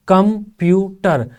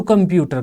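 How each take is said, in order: First: कंप्यूटर in three slow beats, कं-प्यू-टर; syllable by syllable. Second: Said in the usual way. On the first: Shown as a demonstration. Teacher showing three flows in कंप्यूटर, syllable by syllable. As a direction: pause between each syllable of कंप्यूटर, drawn out. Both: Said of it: "कंप्यूटर में तीन flow हैं".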